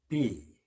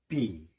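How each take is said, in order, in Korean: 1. 글자 이름인 'bee'로 발음합니다. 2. 글자 이름인 'bee'로 발음합니다.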